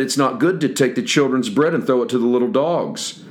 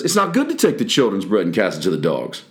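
First: Said in the usual way. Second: Wry sarcastic remark to disciples; sarcastic question. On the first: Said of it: "put a question mark on that". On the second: Shown as a demonstration. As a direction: toss "dogs" off with a question mark. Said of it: "Once again, with a question mark".

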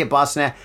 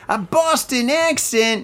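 First: Said in the usual way. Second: High, slow, hammed-up Boston accent, landing in old-school New York; attempted Boston accent. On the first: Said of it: "don't even know how to say". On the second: Shown as a demonstration. Podcast host badly trying a Boston accent, exaggerated and high. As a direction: overdo a fake Boston accent, pitched way up. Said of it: "more like old school fake New York".

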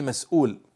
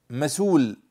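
First: "مسؤول" as mas-'uul, with a glottal stop; pronounced with hamza. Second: "مسول" said slowly as ma-suul, no glottal stop; hamza dropped. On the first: Teacher giving the standard form for comparison, with hamza. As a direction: catch the breath before the long u of "مسؤول". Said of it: "فهناك من يقول مسؤول". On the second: Teacher giving an example word to students, hamza dropped. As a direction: run smoothly into the long u of "مسول". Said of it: "وبعضهم يحذف الهمزة". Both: Shown as a demonstration.

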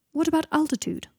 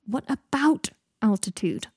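First: Said in the usual way. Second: Slow, strained echo of a question. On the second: A narrator's reading. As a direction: repeat it slowly, straining for patience. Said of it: "in a strained voice".

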